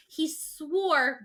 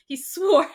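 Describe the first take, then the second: First: Said in the usual way. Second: Swore punched louder, falling; stress on swore. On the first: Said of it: "And she goes". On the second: Shown as a demonstration. Correcting herself before she died, stressing swore. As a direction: hit the word swore hard. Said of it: "before he died, not after".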